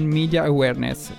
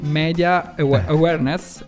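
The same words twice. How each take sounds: First: Media starts with an English 'mee' sound. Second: Media starts with an Italian 'meh' sound.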